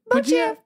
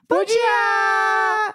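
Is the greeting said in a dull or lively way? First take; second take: dull; lively. First: The greeting is said in a flat, dull way. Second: The greeting is said with lively energy. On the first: The speaker calls it wrong. "achei que ia ser muito sem graça" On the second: The speaker calls it right. "Ao invés de fazer"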